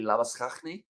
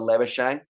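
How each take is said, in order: First: The name is said with Afrikaans pronunciation. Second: The name is said with non-Afrikaans, English-style pronunciation. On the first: "if it was an Afrikaans name, it would be Labuschagne" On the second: "instead goes for Labuschagne"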